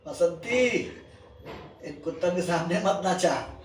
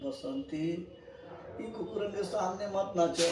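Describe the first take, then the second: First: It is said in a laughing voice. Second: It is said in a crying voice.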